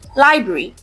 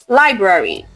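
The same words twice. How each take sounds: First: One R sound is dropped. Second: Both R sounds are pronounced. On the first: The speaker calls it wrong. "many people say library" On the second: The speaker calls it right. "There are two R sounds"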